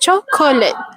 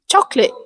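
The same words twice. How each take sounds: First: The word is said with three syllables. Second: The word is said with two syllables. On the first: "instead of" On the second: "with just two syllables"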